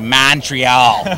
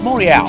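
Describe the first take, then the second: First: It is pronounced the common American way. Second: It is pronounced the local way. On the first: The speaker calls it wrong. "a lot of Americans say Montreal" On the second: The speaker calls it right. "So it's Montreal. Come on, let's get it right"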